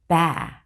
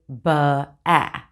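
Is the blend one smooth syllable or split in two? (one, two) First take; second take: one; two. First: The sounds blend smoothly into one syllable. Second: An extra uh sound splits it into two parts. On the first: The speaker calls it right. "instead of saying ba" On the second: The speaker calls it wrong. "they say ba-a"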